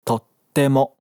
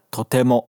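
First: "tottemo" with a clear silent gap before the "te"; geminate pause. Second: "totemo" said straight through with no pause between "to" and "te"; wrong, no gap. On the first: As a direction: stop briefly after "to" in "tottemo". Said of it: "é". ("tottemo" com o vazio antes do te) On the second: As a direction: run "totemo" together without the gap. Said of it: "Não é". ("totemo" sem o vazio, pronúncia errada) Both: Shown as a demonstration.

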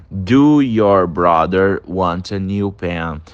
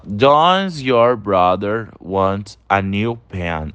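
First: Slow, deliberate wrong form; wrong version. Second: Slow model of the right form, "Does" at the start; correct version. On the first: Teacher showing students the wrong form, slow and deliberate. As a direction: read the mistake out slowly. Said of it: "Não fica". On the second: Teacher giving students the right form, slow and clear. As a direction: read the correct form out slowly. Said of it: "A gente fala". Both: Shown as a demonstration.

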